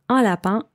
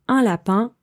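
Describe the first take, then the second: Both takes have the same delivery.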